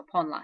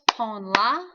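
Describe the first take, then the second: First: Said in the usual way. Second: "pon la" louder, each syllable separate; counted-out syllables. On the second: Shown as a demonstration. Teacher counting syllables for students, "pon la" syllable by syllable. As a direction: count out "pon", "la" as two firm beats. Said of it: "If I count out syllables".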